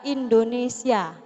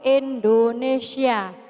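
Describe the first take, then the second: First: The word has its standard vowels and consonants. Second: The word has an 'e' vowel and 'sy' sound. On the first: The speaker calls it right. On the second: The speaker calls it wrong.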